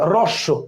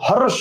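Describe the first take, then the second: First: The word begins with an r sound. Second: The word begins with an h sound. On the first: The speaker calls it right. "রস্য, আর এর উচ্চারণ" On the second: The speaker calls it wrong. "হরস্য না, এইচ এর উচ্চারণ আর এখন আর নাই"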